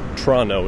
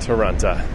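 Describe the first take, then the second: First: Some syllables of the word are dropped. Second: Every syllable of the word is pronounced.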